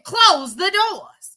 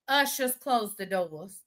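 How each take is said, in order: First: It is said loudly and forcefully. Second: It is said calmly, at normal volume.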